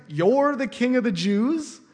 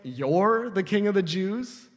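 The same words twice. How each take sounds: First: You're raised and leaned on, slow sarcastic rise; stress on you. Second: Slow, mildly sarcastic question; lightly mock the prisoner's claim. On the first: Shown as a demonstration. Preacher demonstrating Pilate's sarcasm, stress on You're. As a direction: punch You're with sass, rising to the end. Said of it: "the emphasis is on the you". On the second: Pilate sizing up Jesus, a touch of sarcasm. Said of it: "It's got some sass on it".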